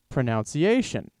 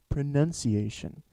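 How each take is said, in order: First: The second syllable sounds like 'nounce'. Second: The second syllable sounds like 'nun'. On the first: The speaker calls it wrong. "Pronounce pronunciation. That that makes sense, right?" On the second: The speaker calls it right. "But no"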